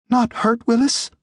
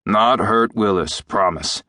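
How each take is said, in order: First: Put-on anxious little creature in a boy's high voice; high, worried creature question. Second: Reassuring doctor to a frightened pet. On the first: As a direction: ask timidly, very high, pitch held up. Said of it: "he said anxiously in Jim's voice". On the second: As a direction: promise it steadily, settling down at the end. Doctor reassures the anxious creature. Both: A narrator's reading.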